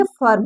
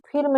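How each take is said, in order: First: फर्म with a short "uh" before the r; फर्म, vowel as short Hindi a, not i; short a sound. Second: फिर्म with a short i before the r; wrong i reading. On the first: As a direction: say फर्म as "furm". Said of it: "पढ़ेंगे फर्म". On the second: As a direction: say फिर्म as spelt, "firm" with an "ih". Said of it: "इसको फिर्म नहीं पढ़ेंगे". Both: Shown as a demonstration.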